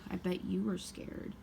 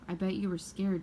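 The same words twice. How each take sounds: First: It is said in a mocking, scornful tone. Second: It is said in a plain, neutral tone.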